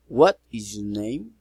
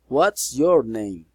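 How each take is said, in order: First: The voice rises at the end. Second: The voice falls at the end. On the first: "Friendly, interesting, politeness, raising intonation" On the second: "Special questions"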